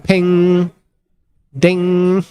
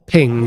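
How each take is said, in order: First: High, held ping like a bell; imitated ping. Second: Short ping at everyday pitch; imitated ping. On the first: Commentator sounding the cube's arrival, high ringing ping. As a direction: ring it out on a raised, level note. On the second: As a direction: say ping as a little sound effect. Imitates a ping while watching the cube. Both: Shown as a demonstration.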